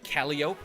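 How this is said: It is said with a Louisiana pronunciation. The speaker calls it wrong. "Louisiana says a lot of things real weird. Like Calliope"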